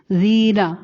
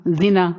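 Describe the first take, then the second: First: زینا with a long first vowel, zee-na. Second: زینا with a short first vowel, zi-na. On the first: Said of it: "زال یا زیر زی نون زبر نا". (زینا کی ی کھینچ کر) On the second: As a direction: clip the zi of زینا short, no stretch. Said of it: "زال زیر زی نون زبر نا". (زینا چھوٹی زیر کے ساتھ، بغیر کھینچے) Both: Shown as a demonstration.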